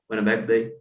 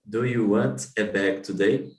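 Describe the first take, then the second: First: It is said very fast and run together. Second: It is said at a normal, careful speed.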